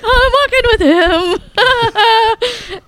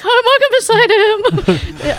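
First: High, slow, laughing squeal; crazy fangirl. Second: High squealing laugh through the words; giddy fangirl. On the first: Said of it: "Like this crazy chick". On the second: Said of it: "I was, like, super excited". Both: Retold or imitated. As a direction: gush like a starstruck fan.

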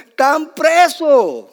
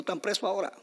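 First: High, loud, drawn-out cry; indignant shout. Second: Said in the usual way. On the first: Real, not acted. Preacher on disciples jailed for the gospel, slow indignant shout. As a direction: belt it out slowly as the climax.

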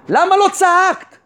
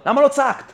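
First: "למה לא צעקת" slow and raised in pitch; emphatic rebuke. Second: Said in the usual way. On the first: Retold or imitated. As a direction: draw out "למה לא צעקת" as a pointed, higher challenge.

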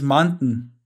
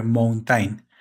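First: "mountain" with the t swallowed, "moun'n"; native English pronunciation. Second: "mountain" as written, full "-tain" ending with every vowel; spelling pronunciation. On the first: Speaker shows friend how it really sounds, native English pronunciation. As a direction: drop the vowel of the last syllable in "mountain". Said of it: "pero la pronunciación es mountain". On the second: Speaker repeats how it is written, spelling pronunciation. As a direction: read "mountain" slowly as a Spanish reader spells it. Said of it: "así se escribe". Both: Shown as a demonstration.

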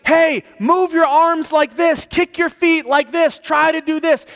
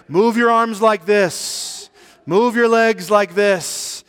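First: Urgent high shout, loud and insistent; shouting instructions. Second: Slow, stately loud call, drawn out; dignified yell. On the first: Prophet on shore shouts to drowning man, high and shouting. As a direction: call out swimming instructions at the top. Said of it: "he was shouting out to me". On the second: Buddha calls to drowning man, dignified slow yell. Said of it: "yelled out to me in a very dignified manner". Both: Retold or imitated.

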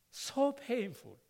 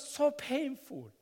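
First: "So painful" drawn out slowly, each word leaned on; slow emphatic repeat. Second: Said in the usual way. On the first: Real, not acted. A pastor repeating his past hardship, slowed and heavy. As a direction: linger on "So painful" to let it land.

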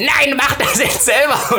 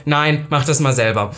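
First: High, drawn-out exasperated outburst; exasperated refusal. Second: Said in the usual way. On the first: Retold or imitated. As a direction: act out losing patience, stretching the words. Second refusal, now exasperated. (genervt, hoch und langgezogen)

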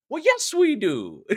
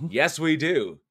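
First: High, slow, lilting mock Irish accent; hammed-up St. Patrick's Day Irish accent; put-on Irish accent. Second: Said in the usual way. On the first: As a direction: draw it out in a playful Irish brogue. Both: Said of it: "that's the accent for next month".

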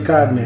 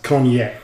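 First: "cognac" said as COG-nack, hard g; own pronunciation. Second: "cognac" said as CON-yack, silent g; proper pronunciation. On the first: Drinker admits how he says it, "cognac" as COG-nack. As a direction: sound out the g in "cognac". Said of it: "But, but I say". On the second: Drinker shows the supposed pronunciation, "cognac" as CON-yack. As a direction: say "cognac" the French-derived way, with a ny sound. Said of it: "I know it's supposed to be pronounced". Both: Shown as a demonstration.

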